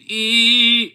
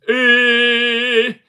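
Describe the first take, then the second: First: The vowel is close, hard and tight. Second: The vowel is more open, like in sit. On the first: The speaker calls it wrong. "I don't think should be E" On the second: The speaker calls it right. "but E. ... more like sit"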